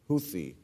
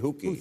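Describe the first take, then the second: First: The middle consonant is a 'th' sound. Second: The middle consonant is a 'k' sound. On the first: "It's T-H" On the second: "You say Houki"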